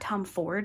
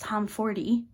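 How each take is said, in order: First: The name ends on the consonant d. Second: The name ends with an added vowel sound. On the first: The speaker calls it wrong. "It's not Tom Ford like I thought" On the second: The speaker calls it right. "you pronounce the E"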